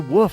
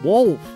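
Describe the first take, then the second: First: The word is said without an L sound. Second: The word is said with an L sound. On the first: Other people say it this way. The speaker calls it wrong. "When they say woof" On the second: The speaker says it this way. The speaker calls it right. "There's an L in there"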